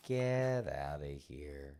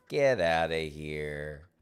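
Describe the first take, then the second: First: A lazy murmured get outta here; slow drawn-out, softer. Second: Slow drawn-out mock dismissal. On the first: Pretend. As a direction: let it trail out slowly and quietly. Repeats the dismissal. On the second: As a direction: stretch every word out slowly, a bit louder.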